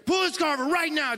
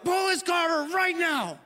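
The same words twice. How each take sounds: First: Angry words through gritted teeth, much higher; through your teeth. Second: Angry retold command, much higher; mad yell. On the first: Retold or imitated. Furious husband tells wife to pull over, through gritted teeth. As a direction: seethe the order through clenched teeth. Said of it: "start talking through your teeth". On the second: Husband retells yelling at wife to stop the car, angry yell. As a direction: bark the order, losing it. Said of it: "So mad".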